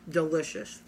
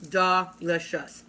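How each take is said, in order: First: Said in the usual way. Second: Delicious drawn out slowly and falling; savoring. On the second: Shown as a demonstration. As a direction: stretch out Delicious, relishing it.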